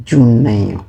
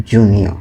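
First: জুনাইও with an extra "ai" before the final o; mistaken pronunciation. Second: জুনিও with "nio", no "ai" sound; corrected Italian pronunciation. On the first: Real, not acted. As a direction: slip into জুনাইও, ending like "naio". (জুনাইও, ‘নাই’ বসিয়ে ভুল উচ্চারণ) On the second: Shown as a demonstration. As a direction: slowly give জুনিও as the correction, falling at the end. (জুনিও, ‘নিও’ দিয়ে শুদ্ধ Italian উচ্চারণ) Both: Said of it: "sorry, জুনিও".

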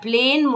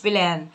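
First: PLAIN with a long "ay" vowel, like the letter A's name; pronounced as written. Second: بلان with an open "aa" in place of "ay"; wrong vowel. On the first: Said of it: "بتتنطق زي ما بتتكتب". (نطق plain بحرف A ممدود كاسمه "إي") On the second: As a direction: mispronounce plain as بلان, with a long "aa". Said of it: "تبقى plain مش بلان". (نطق بلان بألف مفتوحة بدل "إي") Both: Shown as a demonstration.

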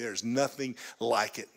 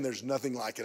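First: "nothing" drawn out and set apart; stress on NOTHING. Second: Said in the usual way. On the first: Real, not acted. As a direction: lean on "nothing" for emphasis. Emphatic repeat after I'm telling you.

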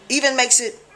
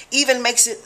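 No difference in how they are said.

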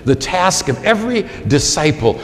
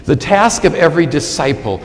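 The two takes are said the same way.

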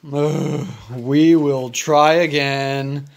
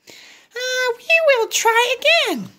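First: Gerald voice. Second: High little pig voice; Piggy encouraging Gerald, high voice. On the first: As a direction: lower big elephant voice. Gerald echoes Piggy. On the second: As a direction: pitch way up, cheery little pig. Piggy's line. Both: Acted.

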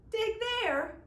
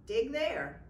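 First: High, loud disbelieving echo; incredulous. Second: Lightly voiced leprechaun, matter of fact; a hint of a sly leprechaun giving orders. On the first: Acted. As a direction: throw the words back in disbelief. Michael echoes in disbelief. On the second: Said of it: "said the leprechaun".

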